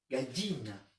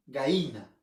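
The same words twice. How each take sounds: First: "Gallina." with a full clear ll, "gaʎina"; Arequipa pronunciation. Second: "Gallina." said as "gaína", no ll sound; Lima pronunciation. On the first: Teacher showing how Arequipa speakers say it. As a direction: give "Gallina." its full ll sound. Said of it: "Y nosotros decimos gallina". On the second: Teacher mimicking a Lima speaker for the class. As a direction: drop the ll in "Gallina." like a limeño. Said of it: "¿Tiene caldo de gallina?". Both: Shown as a demonstration.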